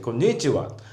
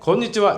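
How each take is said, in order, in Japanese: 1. 変な外国のアクセントで言っています。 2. 日本人のアクセントで言っています。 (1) "外国人が日本語を喋る時って変なアクセントつく" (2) "こんにちはじゃなくて"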